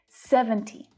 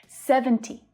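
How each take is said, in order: The two takes are said the same way.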